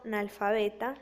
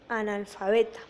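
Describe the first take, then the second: First: The first a sound is dropped. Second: The word begins with an a sound. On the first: The speaker calls it wrong. "se está suprimiendo la A" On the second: The speaker calls it right. "se debería decir analfabeta"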